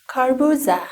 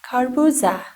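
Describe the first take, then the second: No difference in how they are said.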